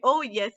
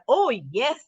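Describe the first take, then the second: First: It is said in a sad way. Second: It is said with enthusiasm.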